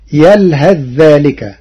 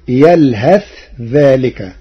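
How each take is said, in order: First: The th merges into the following dh sound. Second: The th is pronounced clearly before the dh.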